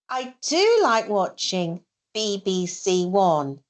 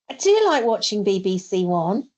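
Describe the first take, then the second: First: It is said slowly and carefully. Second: It is said at fast natural speed.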